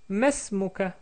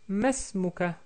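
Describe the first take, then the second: First: It has three syllables, with 'ma' and 'is' merged. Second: The same.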